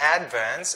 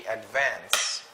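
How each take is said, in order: First: The stress is on the first syllable. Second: The stress is on the second syllable. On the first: The speaker calls it wrong. "So it's not advance" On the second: The speaker calls it right. "it should be advance. ... for the two-syllable word, the stress uh, usually is in the second syllable"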